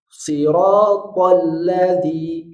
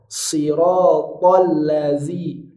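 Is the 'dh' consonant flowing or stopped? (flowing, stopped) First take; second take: stopped; flowing. First: The dh sound is stopped like a d. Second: The dh sound flows continuously like a fricative. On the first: The speaker calls it wrong. "Jangan dibaca syiddah... zalnya tidak bisa ngalir" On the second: The speaker calls it right. "bunyi hurufnya itu mengalir, itu namanya sifat rohwah"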